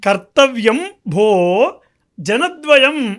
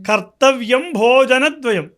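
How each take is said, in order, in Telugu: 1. 'bho' తర్వాత వెంటనే విరామం ఉంది. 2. 'bho' తర్వాత విరామం లేకుండా పదం కొనసాగుతుంది. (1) "అని చదవాలి. భోని విడదీసి జనద్వయం" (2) "అని కాకుండా"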